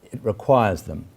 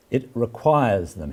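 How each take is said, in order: First: Said in the usual way. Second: "requires" slowed and leaned on, falling tune; stress on requires. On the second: Shown as a demonstration. Lecturer voicing Derrida's emphasis, slow stress on "requires". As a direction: press "requires" deliberately. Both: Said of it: "That's his emphasis again".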